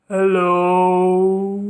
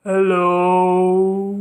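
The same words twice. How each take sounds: First: It is said in a very low voice. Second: The same.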